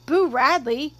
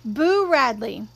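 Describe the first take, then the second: First: "Boo Radley" with a rising question tune. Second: Slow, drawn-out name; measured, weighty statement of the name; deliberate announcement. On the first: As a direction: ask "Boo Radley" back, rising at the end. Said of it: "asked Dill". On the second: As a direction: reveal the name slowly. Jim names the new game. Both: A narrator's reading.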